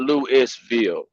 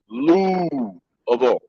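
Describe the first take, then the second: First: It is said with an S sound. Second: It is said without an S sound. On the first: The speaker calls it wrong. "It's not Louisville" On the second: The speaker calls it right. "It is no S. Do not pronounce the S"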